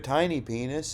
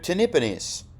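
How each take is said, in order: First: It is said as two clearly separate words. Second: It is run together as one blended word. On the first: The literal meaning is obvious. "My name's not" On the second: It pretends to be a different, harmless word. "it's a different word"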